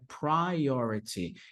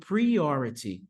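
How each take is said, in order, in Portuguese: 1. A vogal é falada bem aberta. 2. A vogal é falada fechada. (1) "a pronúncia aqui ela é bem aberta" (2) "muitos de vocês falando priority"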